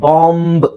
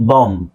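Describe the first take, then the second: First: ಬಾಂಬ್ with a clear b at the end; final b sounded. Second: ಬಾಂಬ್ said as "bom", ending on m; silent b. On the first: Teacher shows the tempting wrong reading, final b sounded. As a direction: draw out ಬಾಂಬ್ and release the final b. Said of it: "ನಾವು ಬಾಂಬ್ ಅಂತ ಹೇಳ್ಬೇಕು ಅಂತ ಅನ್ಸುತ್ತೆ". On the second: Teacher models the correct word, b left silent. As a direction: close ಬಾಂಬ್ on the m, no b. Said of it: "ಈ ಬಿ ನ ನೀವು ಹೇಳೋ ಅವಶ್ಯಕತೆ ಇಲ್ಲ". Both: Shown as a demonstration.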